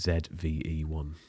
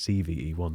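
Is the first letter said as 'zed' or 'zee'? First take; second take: zed; zee. First: The first letter is said the British way, zed. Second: The first letter is said the American way, zee. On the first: The speaker calls it wrong. "doesn't sound right, does it?" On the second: The speaker calls it right. "that sounds better"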